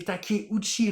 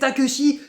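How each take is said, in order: First: The name is read with Japanese sounds. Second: The name is read with French spelling sounds. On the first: The speaker calls it right. "mais non, mais c'est Takeuchi" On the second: The speaker calls it wrong. "c'est comme ça que le Takeuchi devient Takeshi quand on prononce, bien sûr, à la française"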